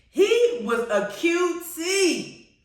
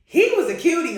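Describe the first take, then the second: First: High, very slow swoon; drawn-out gushing. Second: High, loud gush over a crush. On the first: Fan repeats praise of King George actor, drawn-out gushing. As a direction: stretch every word in high admiration. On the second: Fan swoons over King George actor, gushing. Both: Real, not acted.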